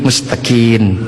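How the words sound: The word ends with an 'n' sound.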